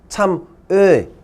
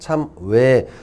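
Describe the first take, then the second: First: The second vowel stays steady without lip change. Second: The second vowel glides as the lips change. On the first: "정상적인 발음은 뭐냐면 참 에 이렇게 발음해야 돼" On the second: "대부분 입술 모양이 변하잖아요"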